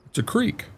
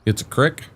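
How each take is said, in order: First: "creek" said with a long ee, like "seek". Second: "crick" said with a short i, like "brick". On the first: Contrasting accents for chat, "creek" with long ee. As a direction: draw out the ee in "creek". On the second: Contrasting accents for chat, "crick" with short i. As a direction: make "crick" rhyme with "stick". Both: Shown as a demonstration. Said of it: "Where the hell's the A".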